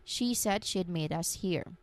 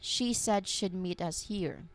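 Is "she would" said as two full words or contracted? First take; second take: contracted; contracted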